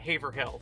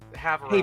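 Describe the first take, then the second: First: The second H sound is clearly pronounced. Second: The second H sound is left out. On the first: The speaker calls it wrong. "I knew it wasn't Haverhill" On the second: The speaker calls it right. "I knew not to pronounce the second H"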